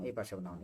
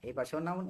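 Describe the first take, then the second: First: এই পাশেও noun dropped low and soft at the end; falling close. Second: এই পাশেও noun with a rising, higher tune; rising list tune. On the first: Teacher closing the pattern for students, falling. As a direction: let এই পাশেও noun fall away lower and softer. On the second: Teacher chanting the pattern to students, rising. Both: Shown as a demonstration. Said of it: "pattern drill rise then fall".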